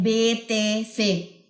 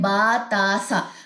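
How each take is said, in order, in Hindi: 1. हर अक्षर के नाम का अंत 'e' स्वर से होता है। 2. हर अक्षर के नाम का अंत 'a' स्वर से होता है। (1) "उर्दू में हम क्या पढ़ते हैं" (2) "अरबी में क्या पढ़ते हैं"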